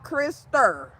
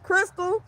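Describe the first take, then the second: First: The name is said with an extra R sound. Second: The name is said without an extra R sound. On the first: "Grandma put R's on everything. She called me Krister" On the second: "My name is Crystal"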